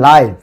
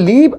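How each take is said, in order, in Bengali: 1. স্বরধ্বনিটি লম্বা, 'eye'-এর মতো। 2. স্বরধ্বনিটি ছোট, 'it'-এর মতো। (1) "আর এটা হবে লাইভ" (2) "উচ্চারণের ক্ষেত্রে এটা হবে লিভ"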